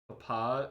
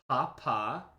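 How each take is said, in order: First: The stress is on the last syllable. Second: The stress is on the first syllable. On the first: It means father. "Papa is father" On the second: It means the Pope. "the emphasis on the first P"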